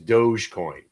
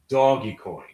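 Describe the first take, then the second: First: The first part is said as one syllable, 'dohj'. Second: The first part is said as two syllables, 'doggy'. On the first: The speaker calls it wrong. "Anybody who still who calls it Doge is a douche" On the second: The speaker calls it right. "it's doggy coin. Say it with me"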